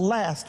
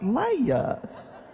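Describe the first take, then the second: First: It is said as one short syllable. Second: It is drawn out in a Southern accent.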